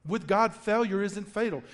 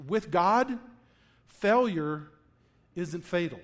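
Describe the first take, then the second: First: Said in the usual way. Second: With God, pause, failure, pause, isn't fatal, each part set apart; slow, spaced tagline. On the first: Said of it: "That's our game changer". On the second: Shown as a demonstration. Pastor gives the congregation the week's key line, slow and spaced. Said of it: "our game changer".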